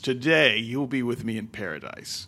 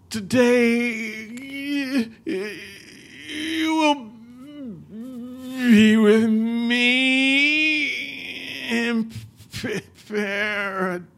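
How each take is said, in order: First: It is said smoothly and confidently. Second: It is said haltingly, choking and stuttering.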